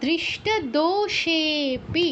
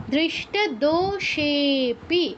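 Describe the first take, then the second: First: দৃষ্ট দোষেপি read slowly, syllable by syllable; teacher reading out the next example word. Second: দৃষ্ট দোষেপি very slow, with দোষেপি stretched; teacher stretching the pluta for the students; drawn-out pluta. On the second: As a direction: hold the ষে in দোষেপি an extra beat. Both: Shown as a demonstration. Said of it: "আরও এক মাত্রা বেড়ে সেপি হয়ে যাবে".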